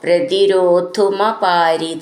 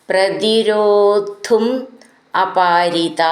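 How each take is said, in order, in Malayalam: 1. ആ രണ്ടു വാക്കുകളും ചേർത്ത് ഒന്നാക്കി പറയുന്നു. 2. ആ രണ്ടു വാക്കുകളും വേറെ വേറെയായി പറയുന്നു.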